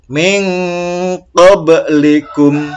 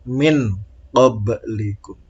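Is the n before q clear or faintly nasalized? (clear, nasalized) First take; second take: nasalized; clear. First: The n is hidden in a faint nasal hum. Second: The n is pronounced clearly before the q. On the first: The speaker calls it right. "Yang benar / dibaca samar" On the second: The speaker calls it wrong. "Jadi jangan"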